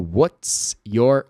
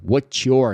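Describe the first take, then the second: First: The ts and your are said separately. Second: The ts and your blend into one sound. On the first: "Em vez de" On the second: "você tem essa permissão de juntar os dois"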